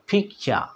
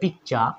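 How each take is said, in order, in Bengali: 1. প্রথম ব্যঞ্জনধ্বনিটি অ্যাসপিরেটেড, শ্বাস সহ। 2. প্রথম ব্যঞ্জনধ্বনিটি সাধারণ, কোনো শ্বাস ছাড়া। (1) "এটাকে আমরা কি বলবো?" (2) "আগে কি বলতাম?"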